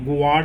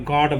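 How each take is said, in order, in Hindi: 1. g के बाद 'w' जैसी ग्लाइड आती है। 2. g सीधे स्वर में चला जाता है। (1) "गुआड नहीं बोलेंगे" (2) "गॉड बोलेंगे"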